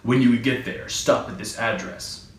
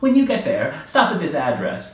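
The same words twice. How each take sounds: First: It is said in a different, non-nervous voice. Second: It is said in a nervous little man's voice.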